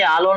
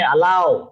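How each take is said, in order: First: The word ends in a pure o vowel. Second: The word ends in an ow glide. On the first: The speaker calls it wrong. "परत आलो म्हणता बरं तुम्ही. आलो नाही" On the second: The speaker calls it right. "अलाव असं वाक्य याचं उच्चार आहे"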